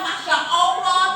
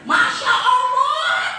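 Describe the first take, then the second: First: It is said in a calm, gentle tone. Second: It is said in a loud, angry tone. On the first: It is a sincere pious expression. The speaker calls it right. "Awalnya wis apik, kalimat thayyibah" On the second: It expresses anger at the child. The speaker calls it wrong. "masya Allahnya pakai nada"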